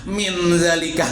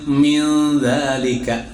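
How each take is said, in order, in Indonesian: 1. Bunyi n dilafalkan dengan jelas dan penuh. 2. Bunyi n tersembunyi, kabur menjadi bunyi sengau. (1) "jangan min zalika. Nah, itu dibaca izhar baraid" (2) "za itu huruf ikhfa"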